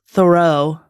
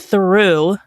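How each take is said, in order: First: The surname is pronounced like 'Thoreau'. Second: The surname is pronounced like 'Theroux'. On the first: The speaker calls it wrong. "I want to say Thoreau, but it's not Thoreau" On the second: The speaker calls it right. "it's Louis Theroux"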